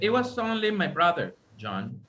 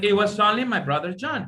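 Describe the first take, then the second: First: There is a pause before John. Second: There is no pause before John.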